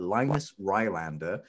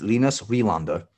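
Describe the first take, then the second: First: The name is said with an English-style pronunciation. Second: The name is said with its native pronunciation. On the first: It is made easy for a Western audience. The speaker calls it wrong. "I'm going to mispronounce his name on purpose because I know my Western audience" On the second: It is the proper form of the name. The speaker calls it right. "or if you're going to be proper about it"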